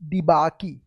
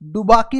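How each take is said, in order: First: The first syllable has an 'ee' vowel. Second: The first syllable has an 'oo' vowel. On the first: The speaker calls it right. "नहीं डिबाकी" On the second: The speaker calls it wrong. "डुबाकी नहीं"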